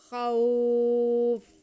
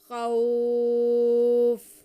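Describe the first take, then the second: First: The vowel in khaw is drawn out long. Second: The same.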